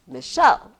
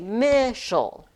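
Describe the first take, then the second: First: The stress is on the second syllable. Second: The stress is on the first syllable. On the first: The speaker calls it right. "I say Michelle" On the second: The speaker calls it wrong. "I don't say Michel"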